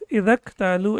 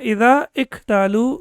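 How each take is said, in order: First: The words run together with no separate i. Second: A separate i sound is said before ktalu. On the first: The speaker calls it right. "We will pronounce it as الَّذِينَ Idak talu" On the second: The speaker calls it wrong. "we will not pronounce it as Alladina Ida iktalu"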